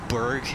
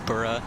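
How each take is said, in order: First: The word ends in a hard g, like 'berg'. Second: The word ends in a vowel, like 'burra'. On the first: This is the American way of saying it. "as Berg in the U S" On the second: This is the Scottish way of saying it. "how you pronounce borough in Scotland"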